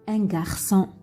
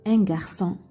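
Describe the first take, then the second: Both takes have the same delivery.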